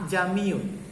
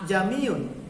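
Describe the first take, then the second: Both takes have the same delivery.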